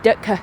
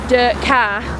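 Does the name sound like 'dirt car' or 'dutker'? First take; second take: dutker; dirt car. First: It is said as one word, like 'dutker'. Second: It is said like the two words 'dirt car'. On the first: This is how locals actually said it. The speaker calls it right. "So that's the Oldham pronunciation" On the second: This follows the written spelling. The speaker calls it wrong. "that's how it was spelt"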